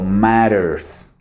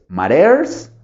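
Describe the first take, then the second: First: Matters stressed on mat-, slow and falling; stress on first syllable. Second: Matters stressed on the last syllable, rising as a question; stress on second syllable. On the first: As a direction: draw out matters with the weight up front, then drop. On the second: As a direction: offer Matters with the weight on -ters, pitch climbing. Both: Shown as a demonstration. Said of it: "¿cuál es el estrés?".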